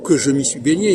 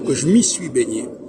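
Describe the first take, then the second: First: Every written e is fully pronounced. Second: The mute e sounds are dropped. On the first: The speaker calls it wrong. "on ne doit pas dire" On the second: The speaker calls it right. "il faut dire"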